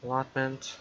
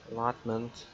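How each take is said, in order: Both takes have the same delivery.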